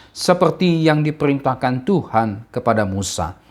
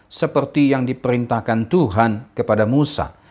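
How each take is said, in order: Both takes have the same delivery.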